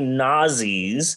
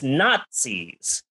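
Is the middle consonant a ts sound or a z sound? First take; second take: z; ts. First: The middle consonant is a plain z sound. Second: The middle consonant is a ts sound. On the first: The speaker calls it wrong. "People don't say Nazis" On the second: The speaker calls it right. "You pronounce it with a T"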